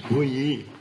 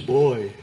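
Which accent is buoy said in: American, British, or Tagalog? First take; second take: American; British. First: The word is said the American way. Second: The word is said the British way. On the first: "If it's American, it's buyi" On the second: "If you're British, it's boy"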